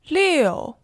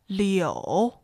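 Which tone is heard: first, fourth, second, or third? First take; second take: fourth; third. First: The pitch falls sharply from high. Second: The pitch dips low, then rises.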